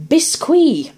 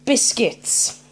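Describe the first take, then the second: First: "biscuit" said slowly the French way, as bees-KWEE; French pronunciation. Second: Said in the usual way. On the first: Shown as a demonstration. Host rereading the biscuit label, "biscuit" in French pronunciation. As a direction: say "biscuit" in mock French, drawing out a final "ee". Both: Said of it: "Or biscuit".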